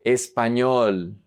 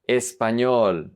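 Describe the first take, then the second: No difference in how they are said.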